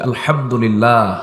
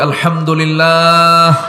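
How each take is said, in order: First: It is said at normal loudness. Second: It is said loudly.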